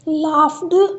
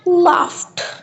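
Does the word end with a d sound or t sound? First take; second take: d sound; t sound. First: The ending is pronounced as a d sound. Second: The ending is pronounced as a t sound. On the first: The speaker calls it wrong. "This is a wrong pronunciation" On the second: The speaker calls it right. "Word की pronunciation होगी"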